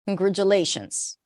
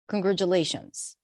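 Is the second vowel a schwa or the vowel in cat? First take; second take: schwa; schwa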